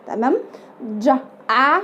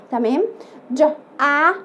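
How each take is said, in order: Both takes have the same delivery.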